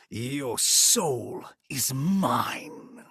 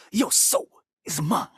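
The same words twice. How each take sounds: First: Very slow, stretched villain line; drawn-out film version. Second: Higher, snappier villain take; Mortal Kombat 11 version. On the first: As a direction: draw every word out. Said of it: "in nineteen ninety-five film, he goes". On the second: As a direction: deliver it quick and sharp. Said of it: "the M K eleven one". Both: Retold or imitated.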